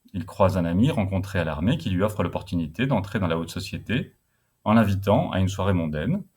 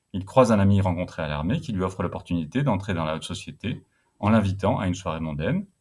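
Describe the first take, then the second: Both takes have the same delivery.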